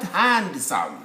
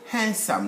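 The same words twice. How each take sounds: First: The d sound is clearly pronounced. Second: The d sound is left silent. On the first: The speaker calls it wrong. "not handsome. There is no hand there" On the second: The speaker calls it right. "A good-looking gentleman will be called handsome"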